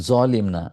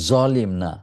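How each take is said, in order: The two takes are said the same way.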